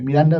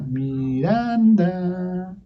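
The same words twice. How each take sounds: First: The name is said with plain speaking intonation. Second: The name is said with a small melodic tune. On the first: "En vez de decir" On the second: "esa pequeña melodía ya hacía voltear al niño"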